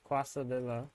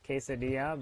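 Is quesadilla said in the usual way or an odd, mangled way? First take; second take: mangled; usual. First: The word is pronounced in an odd, mangled way. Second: The word is pronounced in the usual way. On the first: This is how someone else used to say it. The speaker calls it wrong. "It was uh quesadilla" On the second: This is the normal way to say it. The speaker calls it right. "which is quesadilla, but like not"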